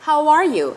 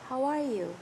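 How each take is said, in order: First: It is said loudly, to carry far. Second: It is said quietly and gently.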